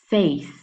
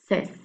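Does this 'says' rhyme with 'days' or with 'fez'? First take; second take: days; fez. First: The vowel keeps the sound of 'say'. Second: The vowel is short, as in 'bed'. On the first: The speaker calls it wrong. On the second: The speaker calls it right.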